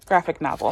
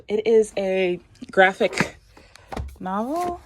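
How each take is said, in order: First: Graphic novel said falling, as a confirmed fact; settled statement. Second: Trailing up, asking if it's called a graphic novel; guessing the name with a questioning rise; unsure rising question. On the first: Naming the book type for viewers, falling and sure. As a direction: land Graphic novel firmly downward. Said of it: "That's what those are called". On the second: Checking the term with viewers, unsure and rising. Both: Real, not acted.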